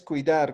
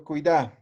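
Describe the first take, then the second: First: Said in the usual way. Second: "cuidar" without final r, stressed cuidÁ; imperative form. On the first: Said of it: "Unjaña es cuidar". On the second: Shown as a demonstration. Teacher asking for the order form, "cuidar" said as cuidá. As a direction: end "cuidar" on a stressed open á. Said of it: "cómo digo frase de orde".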